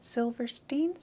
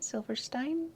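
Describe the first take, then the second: First: Higher, rising Silverstein ending in STEEN; questioning -steen version. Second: Higher, rising Silverstein ending in STINE; questioning -stine version. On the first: Asking how to say his name, questioning Silverstein as -steen. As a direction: ask Silverstein with -steen at the end. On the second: Asking how to say his name, questioning Silverstein as -stine. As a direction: ask Silverstein rhyming the end with mine. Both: Shown as a demonstration. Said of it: "Do you know how to say his name?".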